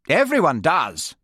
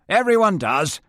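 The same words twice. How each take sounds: First: Higher and louder, falling with finality; haughty Lady Jane. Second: Higher, with a smug lift at the end; smug Major. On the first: Lady Jane dismissing the group, haughty falling tune. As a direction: close it down, not to be argued with. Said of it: "Her voice was high and loud". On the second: Major Frame boasting to the group, smug rising tune. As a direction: let it rise, pleased with himself. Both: Acted.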